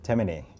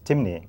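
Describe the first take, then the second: First: The name is said with three syllables. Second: The name is said with two syllables. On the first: This is how it is said in Carriacou. "in Carriacou, they pronounce it Temene" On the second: This is how it is said in Sierra Leone. "but it's Timne in, in Sierra Leone"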